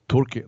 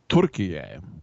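First: The name is said with two syllables. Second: The name is said with three syllables. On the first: This is the old name. "they don't say turkey anymore" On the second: This is the name the country now wants. "They want to say Turkey-yay"

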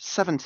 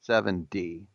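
First: The t is said as a clear t sound. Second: The t is said like a soft d sound. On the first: "I'm pronouncing my T like I'm British" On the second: "In America, we pronounce it with a D"

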